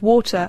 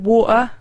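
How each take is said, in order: First: The T is clearly pronounced in the middle. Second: The T is dropped and replaced by a catch. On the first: "instead of water" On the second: "T's and say words like water"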